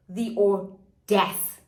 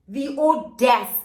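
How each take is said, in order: First: Audace said slowly as "oh-DASS", French style. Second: The audace said louder and higher, slowly; audace repeated. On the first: Narrator mocking his nerve with a slow French audace. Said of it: "The audace, again". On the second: Narrator repeating audace louder in disbelief. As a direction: hit audace again, louder. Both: Shown as a demonstration.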